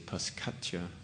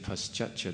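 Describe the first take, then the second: First: The middle consonant is a k sound. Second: The middle consonant is a ch sound. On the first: The speaker calls it wrong. "instead of saying paschatcha, they say" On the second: The speaker calls it right. "when they see a C in Sanskrit, it's pronounced as cha"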